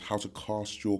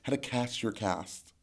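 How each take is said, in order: First: It is said in the speaker's usual, non-American accent. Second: It is said in an American accent.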